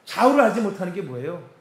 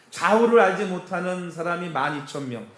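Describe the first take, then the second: First: 좌우를 stressed, the question rising at the end; questioning rise. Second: Said in the usual way. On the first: Shown as a demonstration. Pastor quizzing the congregation on 좌우를, rising question.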